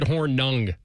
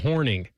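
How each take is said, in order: First: The second syllable sounds like 'ung'. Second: The second syllable sounds like 'ing'. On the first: This follows the written spelling of the name. The speaker calls it wrong. "You said Hornung" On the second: This is how the man himself said his name. The speaker calls it right. "I honestly think he pronounced it Paul Horning"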